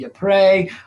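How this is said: It is said with a French pronunciation. "the French say Ypres"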